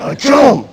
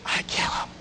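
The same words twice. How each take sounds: First: Higher, firm and certain; inner thought voiced. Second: Barely voiced, hushed admission; whispered quote. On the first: Trainer voicing what every woman thinks, raised and firm. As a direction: state it as a settled decision. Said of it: "But you think". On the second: Audience member admitting what she would do, hushed. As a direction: whisper it like a guilty secret. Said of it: "Somebody said it".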